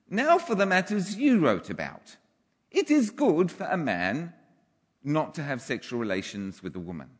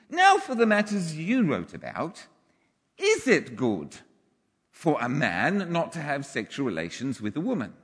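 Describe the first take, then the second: First: It ends with a falling, statement tune. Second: It ends with a rising, question tune.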